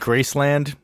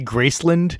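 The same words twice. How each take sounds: First: The second syllable is full, like the word land. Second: The second syllable is reduced, like a city name. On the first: The speaker calls it right. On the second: The speaker calls it wrong.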